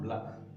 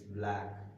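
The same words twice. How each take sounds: First: The vowel is short. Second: The vowel is long. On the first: The speaker calls it wrong. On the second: The speaker calls it right. "Clearly visible that the sound is long"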